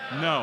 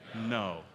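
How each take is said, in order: First: It is said with more zeal and force. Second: It is said with modest energy.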